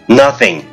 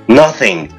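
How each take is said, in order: No difference in how they are said.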